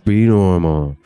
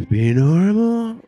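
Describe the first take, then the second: First: Tense, louder, strained order to himself; strained self-command. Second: Much higher, slow, strained self-plea; high wobbly plea. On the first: Comic ordering himself to act normal, tense and loud. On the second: Comic pleading with himself while high, pitched up and slow. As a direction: beg yourself to be normal, voice going up. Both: Retold or imitated. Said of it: "just trying to, like, just be normal".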